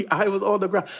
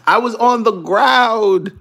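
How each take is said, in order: First: Said in the usual way. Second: Loud and slow; "on" stretched loudly and slowly; emphatic. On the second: Real, not acted.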